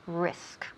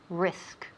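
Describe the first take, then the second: Both takes have the same delivery.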